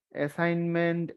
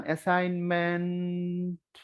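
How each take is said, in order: First: Said in the usual way. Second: Drawn out slowly, syllable by syllable; slow spelling demo. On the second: Shown as a demonstration. Teacher to students, spelling the word out slowly. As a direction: stretch each part of assignment slowly like reading it aloud. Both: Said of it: "syllable দিয়ে দিয়ে পড়তে পারেন".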